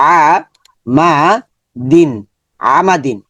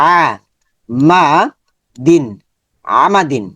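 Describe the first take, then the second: The two takes are said the same way.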